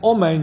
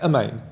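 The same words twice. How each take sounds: First: The first vowel is full and unhurried. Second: The first vowel is snatched and hurried. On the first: The speaker calls it right. "Instead of saying Amen" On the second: The speaker calls it wrong. "you shouldn't say a snatched Amen or a chataf Amen"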